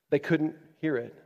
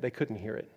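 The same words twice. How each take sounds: First: Said in the usual way. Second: Dropped low and soft; hushed, sorrowful statement. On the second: Real, not acted. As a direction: say it quietly, almost to yourself.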